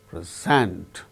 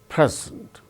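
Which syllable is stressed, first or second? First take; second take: second; first. First: The stress is on the second syllable. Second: The stress is on the first syllable. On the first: It is used as a verb. "When it is used as verb, present. Second syllable gains stress" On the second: It is used as a noun. "when it is used as noun, it is present"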